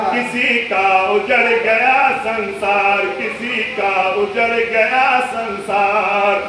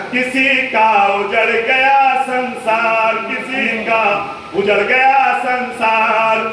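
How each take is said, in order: Both takes have the same delivery.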